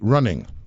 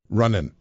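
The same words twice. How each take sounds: First: The ending is a full ng sound. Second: The ending is a plain n sound. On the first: The speaker calls it right. "You had to say" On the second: The speaker calls it wrong. "she would not allow us to say things like"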